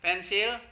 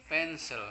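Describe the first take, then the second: First: "Pensil" high and loud, clear I ending; Indonesian word. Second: "pensel" with reduced last vowel; English word. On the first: Teacher cues pupils with the local word, Indonesian "Pensil". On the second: Teacher shows pupils the similar English word, English-style "pensel". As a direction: answer "pensel" the English way, weak ending. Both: Shown as a demonstration. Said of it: "Mirip kan?".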